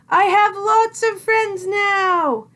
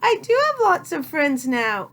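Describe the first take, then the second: First: It is said loudly. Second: It is said softly.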